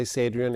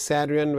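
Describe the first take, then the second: First: "Sadrian" with a long a, as in "say"; common pronunciation. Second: "Sadrian" with a short a, as in "sad"; true pronunciation. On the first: Surgeon gives the common version, "Sadrian" starting with "say". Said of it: "most people say". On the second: Surgeon gives his true name, "Sadrian" starting with "sad". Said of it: "true pronunciation is". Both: Shown as a demonstration.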